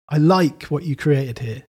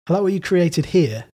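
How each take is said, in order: First: The stress is on "like". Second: The stress is on "here".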